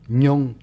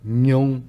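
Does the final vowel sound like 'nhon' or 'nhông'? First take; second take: nhông; nhông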